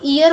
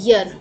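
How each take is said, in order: First: The word starts with a long 'ee' vowel. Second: The word starts with a 'y' consonant sound. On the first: The speaker calls it wrong. "वो ईयर होता ही नहीं है" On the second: The speaker calls it right. "वो यर होता है"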